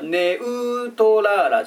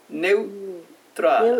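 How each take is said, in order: First: The ne and u are two separate syllables. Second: The ne and u merge into one syllable. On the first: The speaker calls it wrong. "ネウトラーラじゃないんだよね" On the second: The speaker calls it right. "ネウネウっていう感じで一つの音になってますね"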